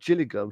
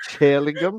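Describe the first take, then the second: First: The name begins with a soft 'j' sound. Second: The name begins with a 'ch' sound. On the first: The speaker calls it right. "instead of saying Gillingham" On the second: The speaker calls it wrong. "she said chill, like Chillingham"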